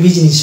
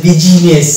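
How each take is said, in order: First: বিজনেস said as two syllables, biz-nes, no i between জ and ন; correct pronunciation. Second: বিজিনেস said with an extra i, bi-zi-nes; wrong pronunciation. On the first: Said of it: "আমরা কিন্তু এটা বলি না যে বিজিনেস". (সঠিক উচ্চারণ বিজনেস, মাঝে ই নেই) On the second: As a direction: demonstrate the mistake বিজিনেস with the added i. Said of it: "এরকম বলি না". (ভুল উচ্চারণ বিজিনেস, মাঝে বাড়তি ই) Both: Shown as a demonstration.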